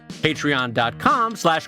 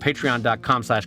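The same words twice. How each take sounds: First: It is said in a Scottish accent. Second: It is said in the speaker's ordinary accent.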